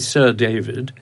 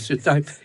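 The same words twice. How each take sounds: First: It is said in a posh, upper-class accent. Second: It is said in a plain London accent. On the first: The title commands attention. The speaker calls it right. "you go quite posh when you suddenly decide that you're Sir David" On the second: The title does not sound impressive. The speaker calls it wrong. "it don't sound right"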